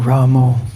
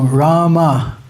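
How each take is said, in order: First: The word ends with an 'o' vowel. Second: The word ends with an 'a' vowel. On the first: This is a regional way of saying the name. "Bengalis pronounce Ramo" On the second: This is the preferred way of saying the name. "Srila Prabhupada pronounced Rama"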